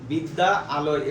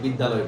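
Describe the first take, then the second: First: It is split into two parts with a break. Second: It is said as one joined word. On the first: The speaker calls it wrong. "এভাবে আলাদা করে বলি না" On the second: The speaker calls it right. "বিদ্যালয় বলি একসাথে"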